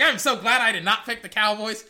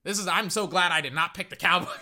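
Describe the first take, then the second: First: Loud relieved quote; louder retold. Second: Said in the usual way. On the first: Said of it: "I'm like". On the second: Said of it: "relieved remark".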